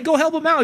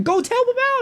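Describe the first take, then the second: First: Higher, louder first command; urgent call. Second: Very high, insistent repeated order; exasperated yell. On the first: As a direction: tell him firmly to go help. First take of the order. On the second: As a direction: shout it at him, fed up. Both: Retold or imitated.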